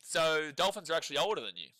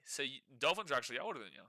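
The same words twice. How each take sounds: First: Said in the usual way. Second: Tossed away under the breath; quick aside. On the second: Real, not acted. Repeating the joke to his co-host as a fast, quieter aside.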